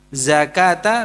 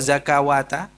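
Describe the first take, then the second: First: The word is said with no 'wa' syllable. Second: The word has an extra 'wa' syllable. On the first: The speaker calls it right. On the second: The speaker calls it wrong.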